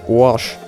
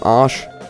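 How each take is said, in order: First: The vowel is darkened toward an o sound. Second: The vowel is a plain open a sound.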